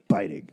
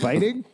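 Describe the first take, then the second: First: It is said as a forceful exclamation. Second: It is said as a rising question.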